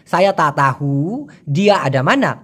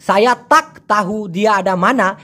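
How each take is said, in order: First: "তা তাহু" low, with the k dropped; usual spoken pronunciation. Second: "সায়া তাক তাহু দিয়া আডা মানা" with a sounded k in "তাক"; textbook pronunciation. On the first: Teacher showing own habitual way, k-less pronunciation. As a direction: glide from "তা" into "তাহু" without a k. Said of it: "আমি প্রায় সময় বলতেছি". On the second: Teacher showing the form not used, textbook pronunciation. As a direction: hit the final k of "তাক", full vowels. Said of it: "এভাবে না বলে". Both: Shown as a demonstration.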